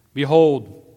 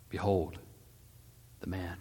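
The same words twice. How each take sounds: First: Loud, raised proclamation; proclaiming. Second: Low, hushed presentation; subdued proclamation. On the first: Pilate presenting the king to the Judeans, loud proclamation. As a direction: call it out to the crowd. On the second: Pilate presenting the beaten Jesus, low and subdued. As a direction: proclaim it gravely, dropping softer at the end. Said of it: "and Pilate proclaimed". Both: A narrator's reading.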